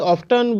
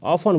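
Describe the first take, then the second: First: The t sound is pronounced before the ending. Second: The t sound is silent before the ending. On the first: The speaker calls it wrong. "ऑफ्टन भी बोलते हैं, जो गलत है" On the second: The speaker calls it right. "ऑफन बोलिए"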